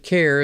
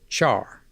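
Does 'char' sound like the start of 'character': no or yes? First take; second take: yes; no. First: It sounds like the start of 'character'. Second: It does not sound like the start of 'character'. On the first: It follows the word it is short for. "char is also an equally acceptable pronunciation since it's short for character" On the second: This is the speaker's own usual pronunciation. "I pronounce C H A R, char"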